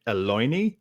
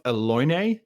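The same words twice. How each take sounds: First: "Eloine" as eh-LOY-nee, ending in "nee"; tentative "Eloine", eh-LOY-nee; alternative pronunciation. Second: "Eloine" as eh-LOY-nay, ending in "nay"; questioning "Eloine", eh-LOY-nay; unsure pronunciation. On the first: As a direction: try "Eloine" as a question, last syllable rhyming with see. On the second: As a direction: say "Eloine" tentatively, last syllable rhyming with day. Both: Shown as a demonstration. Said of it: "any idea how to pronounce that".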